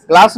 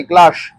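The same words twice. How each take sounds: First: क्लास ending in a plain hissing s; wrong sound. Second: क्लास ending in sh, as "klaash"; corrected sound. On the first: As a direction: say क्लास with a final s, not sh. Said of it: "क्लास नहीं, क्लास". (क्लास के अंत में 'स' की आवाज़) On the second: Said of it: "double एस है ना". (क्लास के अंत में 'श' की आवाज़) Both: Shown as a demonstration.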